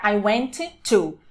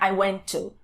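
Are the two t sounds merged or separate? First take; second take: separate; merged. First: Both t sounds are pronounced separately. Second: The two t sounds merge into one. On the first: The speaker calls it wrong. "não vai ficar" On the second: The speaker calls it right. "Eu suprimo a primeira e junto o som. Vai ficar"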